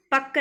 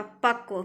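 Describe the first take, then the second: First: पक्व as "pakka", without v; wrong pronunciation. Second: पक्व as "pakva", with a v glide; correct pronunciation. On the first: Teacher showing students the error, पक्व as "pakka". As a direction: drop the v sound from पक्व. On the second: Teacher correcting students, पक्व as "pakva". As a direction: sound the v at the end of पक्व. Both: Shown as a demonstration. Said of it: "पक्व नहीं होता".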